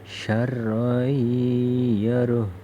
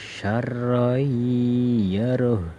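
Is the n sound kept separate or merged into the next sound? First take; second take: merged; merged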